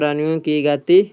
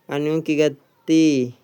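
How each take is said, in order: First: Rising, louder, as if the answer is coming; suspense build. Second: Drawn out, falling on गति; slow it down and let गति land; slow emphatic repeat. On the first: Teacher quizzing students, rising suspense on गति. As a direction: hold the listener on गति with a lift. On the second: Teacher quizzing students, slow weighty repeat. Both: Shown as a demonstration.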